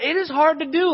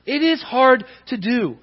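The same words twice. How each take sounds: First: "It is hard to do" pushed much higher with a lift on "do"; emphatic admission. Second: "It is hard to do" with weight on "is" and a falling close; settled restatement. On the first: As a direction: stress "hard to do" with rising urgency. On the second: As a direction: lean on "is", let it land. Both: Shown as a demonstration. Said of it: "Like, I know that".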